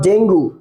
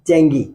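First: The word ends with a 'goo' sound. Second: The word ends with a 'gee' sound. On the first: The speaker calls it wrong. "It's not ডেঙ্গু" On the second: The speaker calls it right. "It's ডেঙ্গি"

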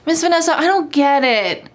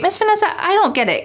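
First: The voice sounds annoyed and careless. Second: The voice sounds polite and friendly. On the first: The speaker doesn't really care and is irritated. The speaker calls it wrong. "potentially rude if you say, ... with this kind of attitude, like, "I don't really care. Oh, I'm annoyed."" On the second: The speaker sincerely wants help understanding. The speaker calls it right. "But if you say this in a polite way"

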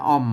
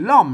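First: The word is said with a low tone. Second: The word is said with a non-low tone. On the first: This is the Tai Lue and Tai Yong pronunciation. "เปิ้นออกเสียงเอกนะครับอ้อม" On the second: This is the Chiang Mai Tai Yuan pronunciation. "ล้อมนี่เป็นล้อมนะครับ"

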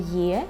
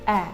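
First: The vowel starts with a y glide, like ye. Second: The vowel is a plain e without a glide. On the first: The speaker calls it wrong. "Це ніколи не є" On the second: The speaker calls it right. "це завжди Е"

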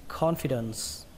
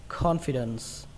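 Both takes have the same delivery.

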